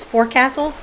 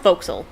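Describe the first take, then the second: First: "forecastle" with both words whole, FOR-CASS-ul; as spelled. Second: "forecastle" contracted to FOKE-sul; nautical pronunciation. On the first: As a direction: say "forecastle" as fore plus castle. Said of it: "but it's forecastle". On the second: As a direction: say "forecastle" in two syllables, as "fo'c'sle". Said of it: "it's pronounced forecastle". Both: Shown as a demonstration.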